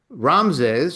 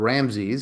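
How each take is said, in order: First: The name is said in a non-American way. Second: The name is said the American English way.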